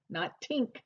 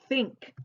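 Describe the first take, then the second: First: It begins with a plain t sound. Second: It begins with the tongue between the teeth. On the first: The speaker calls it wrong. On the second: The speaker calls it right. "you have to stick your tongue through your teeth"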